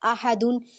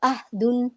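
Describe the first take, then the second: First: A vowel is sounded right after the h. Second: The h is closed with no following vowel. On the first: The speaker calls it right. "कहीं पे आपका हरकत लगा था" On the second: The speaker calls it wrong. "हरकत को हटा के सुकून के साथ पढ़ दिया"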